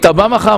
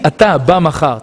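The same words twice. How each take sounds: First: The first word is clipped to a short form. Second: The first word is said in full. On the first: "מה זה תא?" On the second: "אתה"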